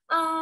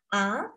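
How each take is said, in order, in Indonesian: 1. Nadanya tetap tinggi dan datar. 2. Nadanya naik ke atas. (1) "nada pertama dan nada yang datar. A, datar dan tinggi" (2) "nada dua adalah naik ke atas ya"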